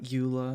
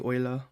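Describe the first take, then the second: First: The name is said with English vowel sounds. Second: The name is said with German vowel sounds. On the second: "if her name was actually supposed to be pronounced like German"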